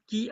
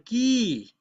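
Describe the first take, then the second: First: The vowel is said short. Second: The vowel is said long.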